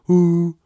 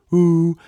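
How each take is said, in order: First: Male hoot sound. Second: Hoo, much higher and louder, a real hooting call. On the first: Explaining hundred hertz, demoing a hoot. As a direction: show how a man says hoot, mouth rounded. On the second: Demoing the hundred hertz hoot to viewers, loud and high. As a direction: belt out the hoo like an owl. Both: Shown as a demonstration. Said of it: "if you say the word hoot".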